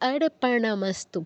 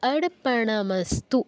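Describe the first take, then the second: First: The r comes before the p: arpanamastu. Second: The same.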